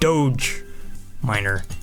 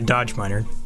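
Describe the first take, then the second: First: The first word sounds like 'doge'. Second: The first word sounds like 'dodge'. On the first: The speaker calls it right. "Apparently is how you pronounce that one" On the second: The speaker calls it wrong. "Not necessarily dodge miner"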